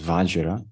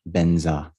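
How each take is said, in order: First: It begins with a V sound, ending 'jra'. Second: It begins with a B sound, ending 'nza'. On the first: This is the Sanskrit pronunciation. "the kind of more correct Sanskrit pronunciation is Vajra" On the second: This is the Tibetan pronunciation. "as the Tibetans pronounce, Benza"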